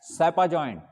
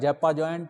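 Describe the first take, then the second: First: The first word starts with an s sound. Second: The first word starts with a z sound. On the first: The speaker calls it right. "पर इसे पढ़ा जाता है सेपा joint" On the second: The speaker calls it wrong. "कोई कहेगा जैपा joint"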